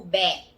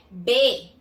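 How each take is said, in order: First: "bé" with an open E, like bet; open vowel. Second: "B" said bê, with closed E; closed vowel. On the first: Teacher offering the alternative syllable, open vowel. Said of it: "ou bé". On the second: Teacher giving the first syllable, closed vowel. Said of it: "A primeira sílaba de beber é". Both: Shown as a demonstration.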